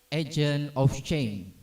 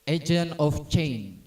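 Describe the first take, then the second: The two takes are said the same way.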